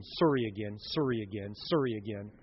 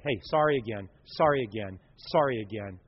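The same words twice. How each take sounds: First: Canadian "sorry" said "sorr-ee" with a Canadian accent. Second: Said in the usual way. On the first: Shown as a demonstration. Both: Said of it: "Or if you're Canadian".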